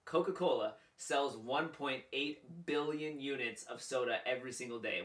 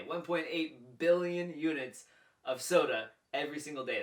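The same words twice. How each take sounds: First: Said in the usual way. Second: Louder, rising on "billion" to hammer the number; emphatic repeat. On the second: Shown as a demonstration. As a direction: drive home "One point eight billion" with a lift.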